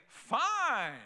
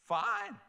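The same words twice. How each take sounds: First: A short "Fine", a bit higher, falling; God conceding. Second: "Fine" jumped far higher, then falling; God's sharp "Fine". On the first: God answering a stubborn person who says "mine", curt. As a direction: give in with one curt word. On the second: God letting a stubborn person go, much higher and exasperated. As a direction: fling "Fine" up high, exasperated. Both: Retold or imitated. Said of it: "God will say".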